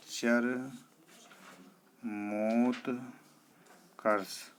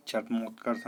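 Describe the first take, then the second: First: चरमोत्कर्ष very slowly in three parts, char-mot-karsh; syllable by syllable. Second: चरमोत्कर्ष said quickly as one run; wrong form. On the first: Teacher shows the spelling, चरमोत्कर्ष very slowly broken up. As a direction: stretch and separate each part of चरमोत्कर्ष. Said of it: "इस तरह". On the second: Teacher rejects the error, quick चरमोत्कर्ष. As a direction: rattle off चरमोत्कर्ष as the mistaken version. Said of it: "नहीं होता". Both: Shown as a demonstration.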